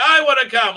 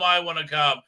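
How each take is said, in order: First: Much higher, louder whining I wanna come; whiny mock plea. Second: Said in the usual way. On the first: Isildur begging to join, a shrill whiny plea. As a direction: whine I wanna come like a pleading kid. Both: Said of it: "And it's like".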